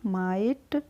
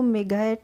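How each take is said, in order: First: No g sound is heard mid-word. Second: A hard g sound is heard mid-word. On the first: The speaker calls it right. "इसको बोलिएगा माइट" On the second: The speaker calls it wrong. "इसको मेघैट नहीं बोलिएगा"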